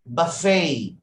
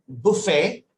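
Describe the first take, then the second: First: "buffet" the American way, buh-FAY, long final A; American pronunciation. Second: "buffet" said the British way, BUH-fay; British pronunciation. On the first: Teacher showing a learner American English, American pronunciation. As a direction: draw out the last syllable of "buffet". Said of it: "in American English, it will be buffet". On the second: Teacher showing a learner the British English word, British pronunciation. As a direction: say "buffet" as a Briton would. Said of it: "in British English, it is buffet". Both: Shown as a demonstration.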